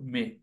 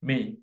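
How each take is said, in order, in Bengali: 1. এটি বাংলা ঢঙে বলা হয়েছে, ছাগলের ডাকের মতো। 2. এটি প্রমিত ইংরেজি উচ্চারণে বলা হয়েছে। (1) "ঠিক বাঙালি ছাগলের মতো মে" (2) "এটার উচ্চারণ হচ্ছে মে"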